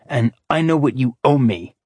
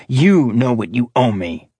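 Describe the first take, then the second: First: "know" leaned on, falling; stress on know. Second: "You" leaned on, falling; stress on you. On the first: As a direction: press the word "know". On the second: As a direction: press the word "You". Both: Acted. Threatening debt reminder.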